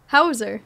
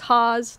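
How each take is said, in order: First: The name has two syllables, with an ending. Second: The name is one syllable, rhyming with cause. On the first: This is how people in Germany say it. "they're like, Hauser" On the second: This is how the family has always said it. "as my whole family's been saying it my whole life, it's Haas, like cause"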